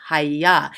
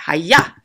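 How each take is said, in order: First: Said in the usual way. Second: "hayah" as a short, punchy karate shout; mock martial-arts "hayah", punched louder on the end; karate-chop cry. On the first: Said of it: "So this word would be". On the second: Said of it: "like you just karate chopped a board".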